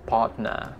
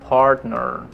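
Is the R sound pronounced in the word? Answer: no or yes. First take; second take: no; yes. First: It is said without any R sounds. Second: It is said with clear R sounds. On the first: "Tanpa R sama sekali" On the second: "What about this?"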